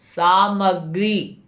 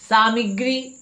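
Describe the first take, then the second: First: सामग्री as "saa-mag-ree", with "a" in the middle; drawn-out सामग्री with "mag"; corrected pronunciation. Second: सामग्री as "saa-mi-gree", with an "i" in the middle; mispronounced सामग्री. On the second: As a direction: say सामग्री as "SAA-mig-ree", higher. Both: Shown as a demonstration. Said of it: "सामग्री नहीं होता है".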